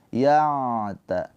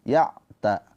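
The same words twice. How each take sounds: First: The ain lets a little sound flow through. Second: The ain is cut off with a full stop. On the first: The speaker calls it right. "ain sukun mempunyai sifat tawassut, ada aliran suara sedikit" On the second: The speaker calls it wrong. "Jangan syiddah, jangan tertahan"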